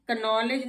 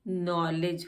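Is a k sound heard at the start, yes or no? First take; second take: yes; no. First: A k sound is heard at the start. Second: No k sound is heard at the start. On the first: The speaker calls it wrong. "का नॉलेज नहीं होता" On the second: The speaker calls it right. "ये नॉलेज होता है"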